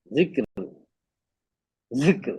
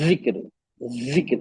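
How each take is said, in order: First: जिक्र said with a soft, light zaal; soft zikr. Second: जिक्र said with a buzzing z, the wrong way; wrong buzzed pronunciation; buzzing jikr. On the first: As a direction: say जिक्र with a gentle tongue touch. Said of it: "जाल से". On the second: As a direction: buzz the जिक्र to show the mistake. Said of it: "buzzing sound कर दिया". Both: Shown as a demonstration.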